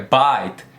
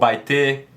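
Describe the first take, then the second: First: The word ends on the T, no added vowel. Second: A vowel sound is added after the final T. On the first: The speaker calls it right. "é bite, é o T mudo" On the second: The speaker calls it wrong. "Você não pronuncia bite"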